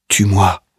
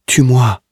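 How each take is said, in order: First: A mild sobbing plea. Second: Higher, louder desperate cry; sobbing scream. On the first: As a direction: beg to die, not yet shouting. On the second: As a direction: scream the plea out now. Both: A narrator's reading. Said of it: "se met à sangloter".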